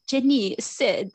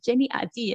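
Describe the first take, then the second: First: English words in an imitated French accent. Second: Said in French, a little raised, imitating the car; French pronunciation. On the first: Car reads out a friend's text, French accent. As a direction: mimic a French car voice, slower and higher. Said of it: "like, in a French accent". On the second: Correcting how the car announces texts, French pronunciation. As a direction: mimic a car's French read-out. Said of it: "Actually, they say it in French".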